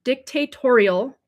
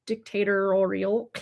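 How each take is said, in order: First: Dictatorial said slowly and cleanly, "dic-ta-TOR-i-al"; careful correct pronunciation. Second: Dictatorial said slowly with an extra syllable, "dic-ta-tor-ri-al"; stumbling pronunciation. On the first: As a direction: say Dictatorial slowly and get it right this time. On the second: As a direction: drag out dictatorial and trip over its middle. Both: Real, not acted. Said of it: "how come I can't say that?".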